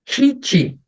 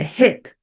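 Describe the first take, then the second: First: The vowel is a tense 'ee' sound. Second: The vowel is a lax, e-like 'ih' sound. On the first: The speaker calls it wrong. "não é hit" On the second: The speaker calls it right. "é hit"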